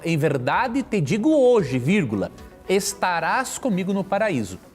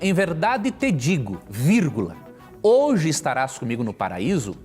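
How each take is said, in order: First: The break comes after the word hoje. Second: The break comes before the word hoje. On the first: The promise is made today about a future day. "se você colocar uma vírgula após hoje, muda o sentido" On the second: They will be in paradise that same day. "Se você ler assim, ó, em verdade te digo, vírgula"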